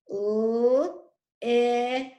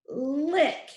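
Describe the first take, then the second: First: "L-I-C" as three separate phonics sounds; "L-I-C" segmented sound by sound. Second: Said in the usual way. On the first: Shown as a demonstration. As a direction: stretch the l, then short i, then k for "L-I-C". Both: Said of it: "Let's tap out the first syllable".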